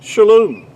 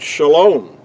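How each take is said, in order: First: The second vowel sounds like U. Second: The second vowel sounds like O. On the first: This is the ancient Hebrew pronunciation. "It's pronounced really, to be more accurately, would be" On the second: This is the modern Hebrew pronunciation. "which in modern Hebrew, the word shalom"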